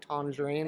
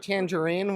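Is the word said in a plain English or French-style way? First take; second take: French; English. First: It is said in a fancy, French-style way. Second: It is said in a plain, everyday English way. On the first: The speaker wants to sound fancy. "if I wanted to be fancy... I might say tangerine" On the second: The speaker is among friends and casual. "I tend to go tangerine when I'm am- among friends"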